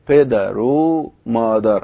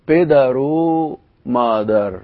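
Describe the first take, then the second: First: An o vowel joins the first word to the second. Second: The same.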